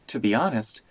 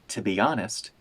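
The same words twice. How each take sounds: Both takes have the same delivery.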